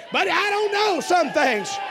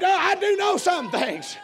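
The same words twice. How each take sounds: First: High, loud "know" after "don't"; stress on KNOW. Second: "do" drawn out high and slow; stress on DO. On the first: Preacher admits limits to congregation, heavy stress on "know". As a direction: lean hard on "know" in "don't know". Contrasts not knowing with knowing. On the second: Preacher affirms his faith to congregation, emphatic stress on "do". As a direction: punch a long, high "do" before "know". Contrasts knowing with not knowing. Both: Real, not acted.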